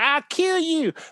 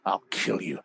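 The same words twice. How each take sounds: First: It is said in a light, playful tone. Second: It is said in a dark, heavy tone. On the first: It is an idle threat among children. "if you're playing it on the playground" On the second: It is a serious threat. "it was a big, dark, heavy thing to say"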